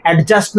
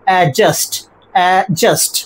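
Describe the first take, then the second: First: অ্যাডজাস্ট with the d sounded before j; wrong pronunciation. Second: অ্যাডজাস্ট with silent d, "a-just"; correct pronunciation. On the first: Teacher showing students the form to avoid, wrong pronunciation. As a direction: say অ্যাডজাস্ট as "ad-just", d clearly heard. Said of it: "অ্যাডজাস্ট নয়". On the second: Teacher modelling adjust without its d, correct pronunciation. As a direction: drop the d in অ্যাডজাস্ট, falling model take. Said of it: "pronunciation কি হবে?". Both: Shown as a demonstration.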